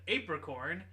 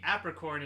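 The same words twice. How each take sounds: First: The first syllable sounds like ape. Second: The first syllable sounds like app. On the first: The title reads as a pun on going ape. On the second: The title's pun on going ape is lost.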